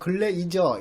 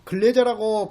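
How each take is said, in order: First: The name ends in a drawn-out 'i-jeo' sound. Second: The name ends in a short 'je' sound. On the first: "근래이저 이렇게 발음하기도 하죠" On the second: "근래제라고 발음하기도 하고"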